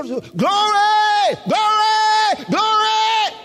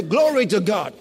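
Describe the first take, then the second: First: High, loud cries of praise; shouting glory. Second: Said in the usual way. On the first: Shown as a demonstration. Preacher contrasts outbursts with everyday praise, shouting. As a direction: shout each one out high. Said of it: "why are they shouting?". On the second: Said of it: "that's different from when we say".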